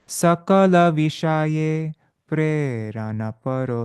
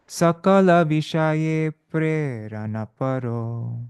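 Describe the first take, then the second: Both takes have the same delivery.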